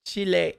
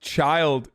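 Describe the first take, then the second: First: "Chile" said as two syllables, chee-LAY; mistaken pronunciation. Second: Put-on "child" said as the English word with the D dropped; correct pronunciation. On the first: Streamer admitting a misreading, "Chile" pronounced chee-lay. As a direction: say "Chile" with an ay ending, like chi-lay. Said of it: "I thought it was Chile". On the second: Streamer explaining the slang to viewers, "child" without its D. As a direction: say "child" like chi-uld, final D left off. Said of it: "it was just child without a D". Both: Shown as a demonstration.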